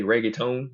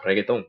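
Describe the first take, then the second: First: Reggaeton with English r, "reg-ay-tone"; English pronunciation. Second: Reggaeton with tapped Spanish r, "reh-geh-tón"; Puerto Rican pronunciation. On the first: Showing how most people say it, English-style reggaeton. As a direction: say reggaeton the Anglo way. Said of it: "most people who s-, say reggaeton". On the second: Showing his childhood neighbors' way, Puerto Rican reggaeton. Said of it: "I could say it like it's Puerto Ricans". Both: Shown as a demonstration.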